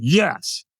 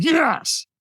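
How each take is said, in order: First: Said in the usual way. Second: Much higher, more forceful yes; stronger yes. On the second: Retold or imitated. Storyteller answering the trainer's demand for more, stronger high-pitched yes. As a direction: push the affirmation up high.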